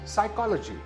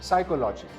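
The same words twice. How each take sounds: First: The stress is on the second syllable. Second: The stress is not on the second syllable. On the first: The speaker calls it right. "it's the second syllable that is stressed" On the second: The speaker calls it wrong. "this is not psychology"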